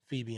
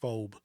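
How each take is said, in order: First: The name is said as two syllables. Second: The name is said as one syllable. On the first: This is how others actually say the name. The speaker calls it right. "But then I heard Phoebe" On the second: This is a misreading of the written name. The speaker calls it wrong. "I used to say phobe and I didn't understand it"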